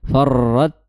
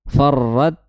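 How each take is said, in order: First: The r sound is held and trilled. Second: The r sound is held and trilled.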